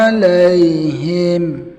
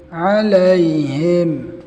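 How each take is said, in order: The two takes are said the same way.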